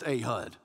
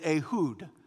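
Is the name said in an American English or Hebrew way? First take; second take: American English; Hebrew. First: The name is said with an American pronunciation. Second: The name is said with a Hebrew pronunciation. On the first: "But here in Alabama, it's just" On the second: "probably the best way to pronounce it in Hebrew"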